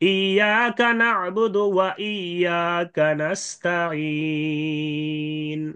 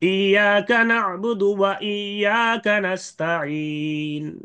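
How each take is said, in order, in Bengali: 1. শেষের দীর্ঘ স্বরবর্ণটি দুই মাত্রা টানা হয়। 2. শেষের দীর্ঘ স্বরবর্ণটি এক মাত্রা টানা হয়। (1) "দুই আলিফ লম্বা করে" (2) "প্রথমে একালিফটা"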